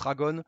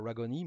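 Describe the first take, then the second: First: The name is pronounced the French way. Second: The name is pronounced the American way. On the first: "en français, on le prononce Ragon" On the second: "Comme Ragon était américain, ça devrait plutôt se dire Ragoni"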